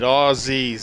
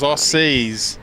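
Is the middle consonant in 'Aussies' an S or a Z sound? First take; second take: Z; S. First: The middle consonant is a buzzing Z sound. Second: The middle consonant is a hissing S sound. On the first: The speaker calls it right. "it's like a Z" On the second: The speaker calls it wrong. "everyone says Aussies"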